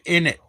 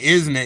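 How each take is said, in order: First: The words are squeezed together into one. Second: Both words are said fully and separately. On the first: The speaker calls it right. "You have to say in it" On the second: The speaker calls it wrong. "you don't say isn't it?"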